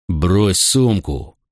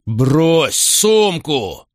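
First: Slow, steady order at normal volume; cold command. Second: Slow, higher shouted order; the repeated order now snapped out in anger; angry command. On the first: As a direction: lay each word down like a threat. Macro orders traitor, sword drawn. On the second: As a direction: bark it, losing patience. Macro repeats order, angrier. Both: A narrator's reading.

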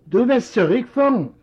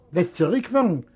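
First: Sharp, higher, louder incredulous question; can't believe what he hears; surprised son. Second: Said in the usual way. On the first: Acted. Son echoes father's demand.

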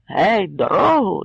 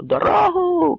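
First: Calling out. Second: High, ringing call to clear the way; крик; shout. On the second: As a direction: yell to part the crowd. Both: Acted. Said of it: "кричав Кремезний".

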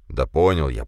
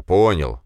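First: Said in the usual way. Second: Grumbling, louder repeat of понял; louder grumble. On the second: Acted. Man grumbles понял louder at the bossy woman. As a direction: bark понял back irritably. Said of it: "буркнул он".

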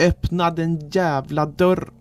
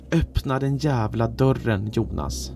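First: High, drawn-out yell without full volume; acted scream. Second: A held-back roar that falls at the end; restrained roar. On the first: Trapped narrator screaming at the door, high held-back scream. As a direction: scream it high and slow, cut off at the end. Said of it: "skrek med min rösts fulla kapacitet". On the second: Trapped narrator ordering Jonas to open the door, restrained roar. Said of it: "och röt". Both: A narrator's reading.

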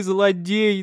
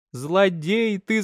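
First: Higher, louder rasping outburst; mother cursing her husband, louder rasping cry; wheezing cry. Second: Higher, slow, drawn-out hoarse cry; old mother to her husband, slow wheezing reproach. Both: Acted. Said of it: "хрипит".

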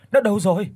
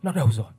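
First: Panicked cry. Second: Said in the usual way. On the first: Acted. Frantic search for phone.

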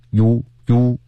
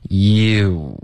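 First: "you" wrongly begun with lips already pouted; lips puckered too early. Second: Drawn-out "you" gliding from relaxed lips into a pout; lips relaxed then rounded. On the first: Teacher warning against puckering first, mispronounced pouty "you". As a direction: say "you" as one pursed vowel, no glide. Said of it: "不要先嘟嘴再发音". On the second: Teacher showing learners how lips move, slow gliding "you". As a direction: say "you" slowly, starting relaxed, ending puckered. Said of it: "嘴唇是放松的 ... 结尾嘴唇是嘟起来的". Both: Shown as a demonstration.

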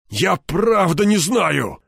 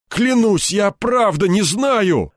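First: Slow, much higher whining plea; plaintive drawl. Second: Much higher, louder, slow begging; frightened colonel swearing he knows nothing; desperate plea. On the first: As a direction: drag it out pitifully. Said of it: "жалобно протянул он". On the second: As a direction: beg him to believe you. Desperate pleading under beating. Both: Acted.

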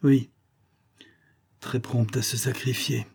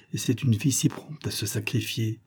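First: Grumbling echo. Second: Said in the usual way. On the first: A narrator's reading. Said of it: "dans un écho qui ressemblait à un grognement". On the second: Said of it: "répéta mon oncle".

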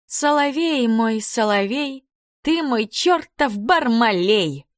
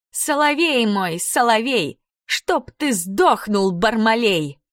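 First: Sung, поёт тоненько, медленно и высоко; sung, пропеть тонким детским голоском; sung, тоненькое пение. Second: Sung, повтор песенки тоненько и медленно, с издёвкой; sung, пропеть высоко, растягивая слова; sung, тоненькое пение. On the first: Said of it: "запела тоненьким голосом". (sung, тоненьким голоском, нараспев) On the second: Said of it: "Катя повторила". (sung, нараспев, с насмешкой) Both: A narrator's reading.

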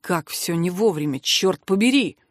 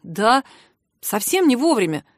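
First: Low-pitched, contained annoyance; understated exasperated grumble; irritated. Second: Mildly rueful agreement; a touch of dismay; crestfallen. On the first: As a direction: sum it up with weary irritation. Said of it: "раздражённо подвёл итог". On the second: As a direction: agree regretfully. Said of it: "сокрушённо заметил Рыжий". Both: A narrator's reading.

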